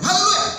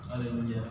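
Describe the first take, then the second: First: It is said loudly with lively energy. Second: It is said flatly with little energy. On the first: The person has spiritual fire. The speaker calls it right. "kalau ada api" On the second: The person has no spiritual fire. The speaker calls it wrong. "nggak ada api"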